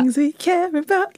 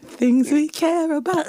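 First: Put-on playful British accent, higher. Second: Put-on lighter British accent take, a bit higher; British accent again. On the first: Co-host opens the show in a put-on British accent. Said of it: "most famous British accent". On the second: Co-host repeats the title in a British accent on request. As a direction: give the British accent one more time. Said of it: "Give me the accent one more time".

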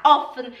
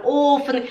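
First: Short open O in "offen"; quick first vowel in "offen"; correct short vowel. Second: Long closed O in "offen", like "Ofen"; students' wrong vowel. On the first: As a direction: model "offen" with a brief O. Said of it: "Em vez de falar offen". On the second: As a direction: drag the first vowel of "offen". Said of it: "elas falam offen". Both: Shown as a demonstration.

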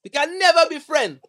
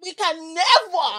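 First: Put-on loud, high, terrible Caribbean accent. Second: Slow, loud, high mock Caribbean; drawn-out hammy Caribbean line; Caribbean accent. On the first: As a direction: belt it in a bad Caribbean voice. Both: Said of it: "That was a terrible Caribbean accent".

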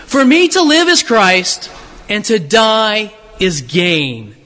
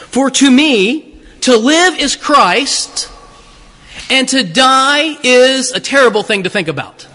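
First: Slow, weighty stress on gain; true reading. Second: Slow, mock-solemn misreading of the verse; mock misquote. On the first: Preacher gives the true verse to the congregation, slow and weighty. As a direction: land the real verse slowly. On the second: Preacher misquotes Paul to the congregation, mock-solemn. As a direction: misquote it slowly and sweetly. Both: Shown as a demonstration. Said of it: "That's not what he says".

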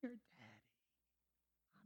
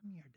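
First: Hushed voice of the Lord. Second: Said in the usual way. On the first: Retold or imitated. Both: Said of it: "And the Lord says".

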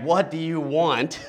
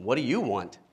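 First: Slow, put-upon exasperated ask; exasperated What do you want, drawn out. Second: Said in the usual way. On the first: Shown as a demonstration. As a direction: sigh it out as if pestered. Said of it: "an exasperated". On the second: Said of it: "This is classic Jesus".

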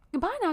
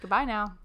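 First: Put-on high, lilting transatlantic accent goodbye; old Hollywood transatlantic accent sign-off. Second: Said in the usual way. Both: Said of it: "Transatlantic accent".

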